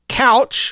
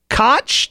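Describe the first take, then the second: First: The name sounds like couch. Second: The name rhymes with crotch. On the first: "like a piece of furniture" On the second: "to rhyme with crotch"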